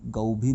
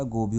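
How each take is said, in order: First: "गौ भी" with an au vowel, gau-bhi; गलत उच्चारण. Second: "गो भी" with a round o, go-bhi; सही उच्चारण. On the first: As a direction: say "गौ भी" as one word, gau-bhi. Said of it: "गौ भी नहीं होता". ("गौ भी" में औ की ध्वनि) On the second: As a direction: say "गो भी" as one word, go-bhi. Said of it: "गो भी होता है". ("गो भी" में ओ की ध्वनि) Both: Shown as a demonstration.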